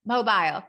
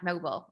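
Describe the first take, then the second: First: "Mobile" said as MO-byle; corrected pronunciation. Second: "mobile" said Southern-style as MO-bul; Southern pronunciation. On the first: Founder correcting the host's Southern accent, "Mobile" as MO-byle. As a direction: give "Mobile" a full long-i second syllable, MO-byle. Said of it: "kindly corrects me all the time". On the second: Founder mimicking the host's mistake, "mobile" as Southern MO-bul. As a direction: shrink the end of "mobile" to MO-bul. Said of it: "my Southern accent calls it mobile". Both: Retold or imitated.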